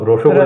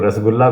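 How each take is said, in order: First: It is said with a Bengali pronunciation. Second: It is said with a Hindi pronunciation.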